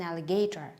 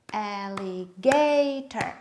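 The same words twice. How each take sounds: First: Said in the usual way. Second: Alligator clapped slowly, GA long and loud; stress on GA. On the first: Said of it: "Where is the stress?". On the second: Shown as a demonstration. Teacher clapping the word for children, stress on GA. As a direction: stretch and punch GA in alligator. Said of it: "you make it high".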